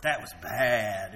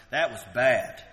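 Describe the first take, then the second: First: "that was bad" slow and low, "bad" stretched out approvingly; "bad" meaning good. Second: "That was bad" flat and dismissive, a falling disapproving "bad"; "bad" meaning horrible. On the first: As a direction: smile through "bad" so it means great. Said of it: "If you're smiling, that's good". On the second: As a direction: say "bad" as a real criticism. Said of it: "Okay, that means horrible". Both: Shown as a demonstration.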